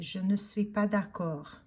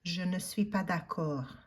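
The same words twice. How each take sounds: No difference in how they are said.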